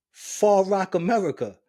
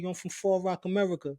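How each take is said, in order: First: FAR ROCK, America punched louder; insistent correction. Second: Said in the usual way. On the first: Retold or imitated. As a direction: hit "Far Rock" hard, correcting the listener. Insists after being asked Queens.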